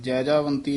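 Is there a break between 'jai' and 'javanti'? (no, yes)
no. The word is said joined, without a break. The speaker calls it wrong. "Jaijaivanti ਨਹੀਂ ਕਹਿਣਾ"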